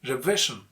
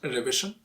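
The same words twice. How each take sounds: First: The second syllable is stressed and louder. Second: The second syllable is not the stressed one. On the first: The speaker calls it right. "you have to stress that syllable" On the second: The speaker calls it wrong. "not revision"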